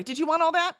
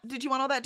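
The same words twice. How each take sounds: First: Bright teasing question. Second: Said in the usual way. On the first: Real, not acted. Teasing check on the chatter.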